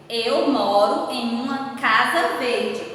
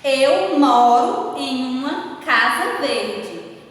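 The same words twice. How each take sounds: First: Said in the usual way. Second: Slow, word by word, reading the sentence aloud; teacher dictating the example sentence slowly to pupils, deliberate; slow dictation. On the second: Shown as a demonstration. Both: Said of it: "Qual foi a palavra que eu utilizei".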